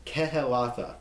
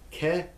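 First: Said in the usual way. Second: "Kehelatha" broken up as keh, heh, lath, ah; syllable by syllable. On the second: Shown as a demonstration. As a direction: sound out every part of "Kehelatha" with pauses between. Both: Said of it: "See how you pronounce everything there?".

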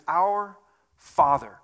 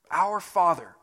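First: Our Father, drawn out slowly with weight on Our; slow emphatic quote. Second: Said in the usual way. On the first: Shown as a demonstration. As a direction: linger on each word: Our... Father. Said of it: "He says".

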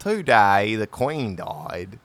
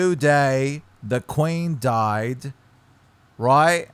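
First: Slow, Aussie-slipping English accent "Today the Queen died"; Australian-tinged English accent. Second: Slow English accent "Today the Queen died". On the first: English accent attempt slipping into Australian, repeating his friend. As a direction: try the line slowly, drifting into Australian. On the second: English accent, showing his friend how it goes. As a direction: model it slowly in an English accent. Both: Shown as a demonstration. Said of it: "I literally can't even say".

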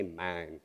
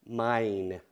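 First: "mine" with a flattened Southern vowel, near "man"; low, soft Southern "mine"; old Southern accent. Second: "mine" with a full long-i glide, drawn out; corrected, accent-free vowel. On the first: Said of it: "I'm gonna change it". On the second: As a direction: carefully round out "mine" as mah-een. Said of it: "I'm gonna say". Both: Shown as a demonstration.

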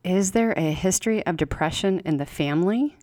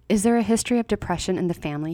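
First: Unhurried and inward, the question turned over with a lifting end; slow echoed question. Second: Quick, matter-of-fact clinical question; brisk doctor's question. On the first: Patient echoing the doctor's question to herself, slow and reflective. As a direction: let the question sink in as she repeats it to herself. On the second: Doctor asking the patient routinely, quick and businesslike. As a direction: rattle it off like a routine checklist item. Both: A narrator's reading. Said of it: "he asks".

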